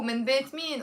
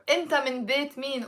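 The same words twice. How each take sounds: First: Said in the usual way. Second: Rattled off fast like everyday speech; quick casual phrasing. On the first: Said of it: "From the house of who". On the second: Shown as a demonstration. Teacher showing how locals fire off the question fast. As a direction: toss it off quickly.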